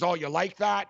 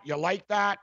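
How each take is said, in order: First: Said in the usual way. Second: Lightly mocking quarterback catchphrase voice; mocking Kirk Cousins. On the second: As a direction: poke fun by aping his gloating catchphrase. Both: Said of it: "Kirk Cousins".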